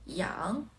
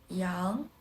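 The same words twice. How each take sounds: Both takes have the same delivery.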